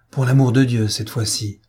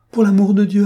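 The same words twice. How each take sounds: First: Said in the usual way. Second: High, loud frantic plea; desperate plea. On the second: A narrator's reading. Fotheringay begs the thunder and lightning, frantic high plea. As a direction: beg the heavens in panic. Pleading with the storm.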